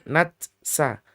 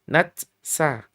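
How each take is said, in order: Both takes have the same delivery.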